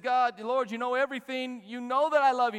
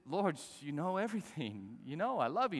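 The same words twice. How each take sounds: First: Loud, high, impassioned pleading; acted anguish, voice raised to insist; heartbroken protest. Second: Said in the usual way. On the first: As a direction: cry it out as a wounded plea. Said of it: "Peter's heart was broken".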